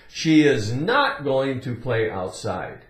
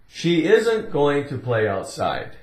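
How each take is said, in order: First: 'Is not' is said as two full words. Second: 'Is not' is contracted into one short word.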